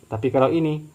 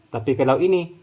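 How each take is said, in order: Both takes have the same delivery.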